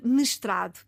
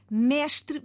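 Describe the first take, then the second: First: MESTRADO as m'strado, stress on "tra"; reduced E. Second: MESTRE pronounced méstre; open stressed E. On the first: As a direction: drop "mestrado" lower, closing the first vowel. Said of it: "a vogal anterior baixa um tom". ("mestrado" com o primeiro e fechado) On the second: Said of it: "O E aberto". ("Mestre" com E tónico aberto) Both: Shown as a demonstration.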